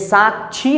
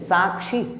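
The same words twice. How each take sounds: First: The middle consonant is a 'chh' sound. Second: The middle consonant is a 'ksh' sound. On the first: The speaker calls it wrong. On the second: The speaker calls it right.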